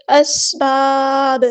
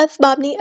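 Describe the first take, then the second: First: اسباب slow, the س hissed clearly; clear whistle. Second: اسباب with a blurred س; the mistaken way; wrong reading. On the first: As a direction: let the س whistle. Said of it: "سین کی سیٹی واضح ہونی چاہیے". (سین کی سیٹی واضح) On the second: (غلط، سین دبی ہوئی) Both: Shown as a demonstration.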